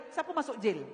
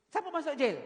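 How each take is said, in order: First: Said in the usual way. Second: Siapa masuk jail? with siapa pressed and falling; emphatic repeat. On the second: Shown as a demonstration. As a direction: press the word siapa as a pointed question.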